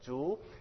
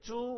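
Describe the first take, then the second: First: The pitch rises throughout. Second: The pitch stays level throughout. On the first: It means bamboo. "If I go up with my voice" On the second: It means pig. "with a straight sound"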